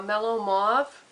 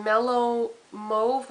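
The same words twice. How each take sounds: First: Mauve with an open AW, "mawv"; alternative pronunciation. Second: Mauve with a long O, "mohv"; slow Mellow Mauve, Mauve as "mohv"; alternative pronunciation. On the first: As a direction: say Mauve with the vowel of "law". Second pronunciation after "or. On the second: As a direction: say Mauve to rhyme with stove. Offers two pronunciations of shade name. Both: Shown as a demonstration.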